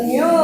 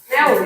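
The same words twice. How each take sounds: First: "new" said slowly as a drawn-out "nyoo"; pronunciation correction. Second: "new" said as "neh-oo", without the y-glide; mispronunciation demo. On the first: Teacher correcting pupils, "new" as a long "nyoo". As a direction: stretch "new" with a clear y-glide. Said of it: "but new ya". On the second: Teacher showing pupils their mistake, "new" as "neh-w". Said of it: "Not new ya". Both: Shown as a demonstration.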